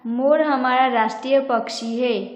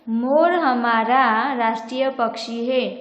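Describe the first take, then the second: First: The stress is on मोर. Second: The stress is on हमारा.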